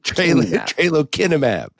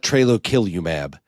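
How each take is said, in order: First: The middle syllable is said with an n sound. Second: The middle syllable is said with an l sound. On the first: The speaker calls it right. "Tralokinumab, Tralokinumab, not" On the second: The speaker calls it wrong. "it is not Trelokilumab"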